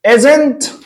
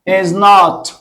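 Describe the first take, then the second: First: It is contracted and said quickly. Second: Not is a separate word said with force. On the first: It is a plain, neutral negative. "لما تقول isn't aren't ديت هتيجي بسرعة" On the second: The negative is emphasized as a confirmation. "لما تقول not انت بتعمل confirmation تأكيد بتجيبها بقوة"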